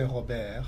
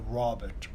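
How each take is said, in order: First: It is said the French way, resonating higher. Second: It is said the English way, resonating low. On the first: "is in your palate" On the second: "Robert sounds in your chest"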